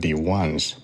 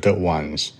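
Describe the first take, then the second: First: The article sounds like 'thee'. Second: The article sounds like 'thuh'. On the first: The speaker calls it right. "在第二个单词这个元音字母前面这个的要变成d，比如说the ones" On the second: The speaker calls it wrong. "不是the ones"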